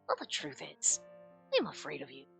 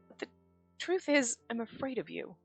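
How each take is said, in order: First: It is said imitating the brother's voice. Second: It is said in the speaker's own voice.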